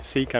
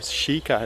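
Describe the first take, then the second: First: It is said with an English pronunciation. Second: It is said with the Japanese pronunciation.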